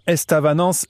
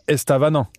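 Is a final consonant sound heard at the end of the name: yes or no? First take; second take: yes; no. First: The name ends with a pronounced final consonant sound. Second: The name ends on a vowel with no final consonant. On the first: The speaker calls it right. "on dit bien Estavanance" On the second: The speaker calls it wrong. "et pas Estavanan"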